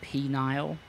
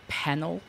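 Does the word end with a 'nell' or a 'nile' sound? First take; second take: nile; nell. First: The word ends with a long 'nile' sound. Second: The word ends with a short 'nell' sound. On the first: The speaker calls it wrong. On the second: The speaker calls it right. "the most mispronounced waypoint in probably Europe"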